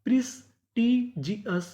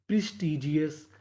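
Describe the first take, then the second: First: "प्रिस्टीजियस" slowly, broken into its parts; syllable-by-syllable reading. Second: Said in the usual way. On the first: Shown as a demonstration. Teacher building the word for students, slow separated syllables in "प्रिस्टीजियस". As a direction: sound out "प्रिस्टीजियस" piece by piece for learners. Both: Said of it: "तो meaning क्या बनी".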